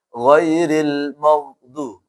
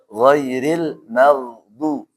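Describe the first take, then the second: First: The 'ma' syllable sounds thick and heavy. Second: The 'ma' syllable sounds thin and light. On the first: The speaker calls it wrong. "nggak boleh teman-teman baca" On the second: The speaker calls it right. "Maka dibaca"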